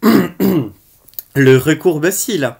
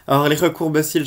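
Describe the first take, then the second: First: Loud, very slow announcement of the product name; product title announcement. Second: Said in the usual way. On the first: Acted. Vlogger introducing the next product to viewers, loud and drawn out. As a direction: boom out "Le recourbe-cils." like a show title.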